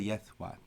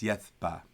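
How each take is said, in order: First: The second syllable starts with a soft w sound. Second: The second syllable starts with a hard b sound. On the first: This is the modern pronunciation. The speaker calls it wrong. "I don't say yethwa. That's a modern thing" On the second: This is the classical pronunciation. The speaker calls it right. "hard because it's a new syllable"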